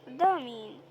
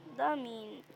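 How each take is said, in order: First: قدها مين? shouted loud, falling at the end; loud challenging shout of قدها مين; loud mock challenge. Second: Said in the usual way. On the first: Real, not acted. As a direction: call out قدها مين like a dare at the screen. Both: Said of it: "يلا، احنا قدها".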